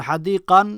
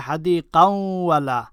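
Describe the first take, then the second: First: হাদিকান on its own, ending in a clear n; unjoined pronunciation. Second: হাদিকাওয়ালা run together, n turned into a held w; joined pronunciation. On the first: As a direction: say হাদিকান as a separate word, stopping on the n. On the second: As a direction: blend হাদিকাওয়ালা into one word with a doubled w. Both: Shown as a demonstration. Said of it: "একসাথে মিলাইলে হয়".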